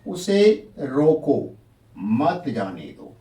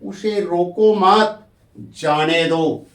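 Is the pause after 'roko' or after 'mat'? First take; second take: after roko; after mat. First: There is a pause after 'roko'. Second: There is a pause after 'mat'. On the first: Stop him and do not let him go. "इसका अर्थ हुआ मनाही कर रहे हैं" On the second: Do not stop him; let him go. "लेकिन इसका विपरीत हो गया"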